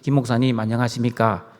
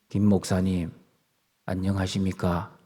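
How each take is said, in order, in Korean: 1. 평범하고 자연스러운 말투로 말합니다. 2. 목소리를 낮추고 짐짓 경건한 체하는 말투로 말합니다. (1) "강도사까지는 그렇게 안 했습니다. 똑같이" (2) "목사 한 수를 받고 나서 말투가 변한"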